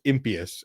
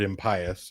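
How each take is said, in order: First: Impious as IM-pee-us; long-e pronunciation. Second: Impious as im-PIE-us; long-i pronunciation. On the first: Quoting dictionary sticklers, impious said IM-pee-us. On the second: Explaining a pet peeve, impious said im-PIE-us. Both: Shown as a demonstration. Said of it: "pronounce the word impious as impious".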